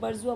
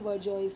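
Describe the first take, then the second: First: It ends in a vowel with no s sound. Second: It ends with a clear s sound. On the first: This is how the word is normally said. "बर्जुआ बोलते हैं वैसे इसको" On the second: It is said this way to keep the spelling in mind. "Spelling गलत ना हो इसलिए बर्जॉइस बोल रही हूँ मैं"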